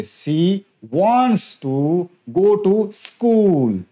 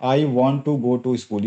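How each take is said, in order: First: Wants stressed, the whole line very slow and deliberate; sentence stress demo. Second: Said in the usual way. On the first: Shown as a demonstration. Teacher showing students sentence stress, very slow. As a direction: drag it out and punch wants. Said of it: "अब stress देके बोलेंगे". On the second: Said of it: "ये तो simple हो गया".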